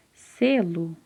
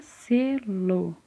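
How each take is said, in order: First: Said in the usual way. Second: "selo" pulled apart, SE then LO, both held; split into syllables. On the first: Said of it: "a palavra selo". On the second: Shown as a demonstration. Teacher giving an example word, "selo" said syllable by syllable. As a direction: stretch "selo" as two separate syllables. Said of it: "como exemplo aqui a palavra selo".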